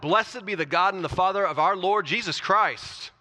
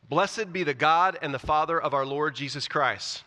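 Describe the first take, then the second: First: It is read in an excited, fired-up way. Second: It is read in a calm, plain way.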